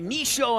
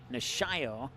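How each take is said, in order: First: The name is said quickly and clipped short. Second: The name is said carefully with every syllable. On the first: The speaker calls it wrong. "When I gotta say it quickly, I say it wrong" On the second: The speaker calls it right. "when I stop to look at the roster, I say it right"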